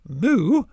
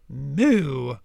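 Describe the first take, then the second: First: It is said like a normal cow. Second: It is said with a French accent.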